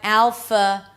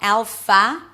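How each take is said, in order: First: The second vowel is a weak schwa. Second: The second vowel is open and full. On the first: The speaker calls it right. "but alpha" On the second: The speaker calls it wrong. "It's not fa. Don't open your mouth too much. It's not alpha"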